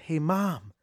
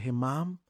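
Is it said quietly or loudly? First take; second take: loudly; quietly. First: It is said with a raised, louder voice. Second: It is said at a normal, quieter volume.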